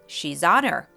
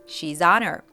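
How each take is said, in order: First: The words run smoothly together. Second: The same.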